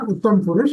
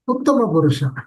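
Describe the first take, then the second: First: The words end without their final vowels. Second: The words end with their final vowels. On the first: The speaker calls it wrong. "not Uttam Purush" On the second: The speaker calls it right. "It is ... Uttama Purusha"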